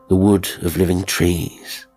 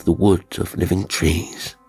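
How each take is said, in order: Both takes have the same delivery.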